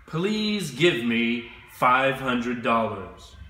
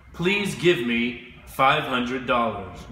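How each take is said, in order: First: Slow, careful model sentence for students to copy; slow model phrase. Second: Said in the usual way. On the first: Shown as a demonstration. Teacher models the customer's request for learners, slow and careful. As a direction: spell it out slowly for the class. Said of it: "you will say". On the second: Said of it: "You can try that right now".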